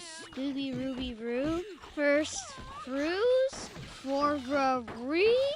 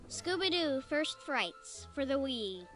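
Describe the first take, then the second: First: It is said in a Scooby-Doo voice. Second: It is said in his normal voice.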